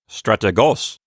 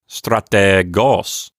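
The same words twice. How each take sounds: First: The middle vowel is said very short. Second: The middle vowel is held long. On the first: The speaker calls it wrong. "don't make the eta really short. Don't say strategos. Don't do that" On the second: The speaker calls it right. "Linger a minute on the eta. You know, take your time with it"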